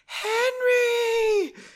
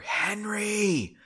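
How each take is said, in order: First: It is a louder whisper in Margot's voice. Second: It is a quiet whisper.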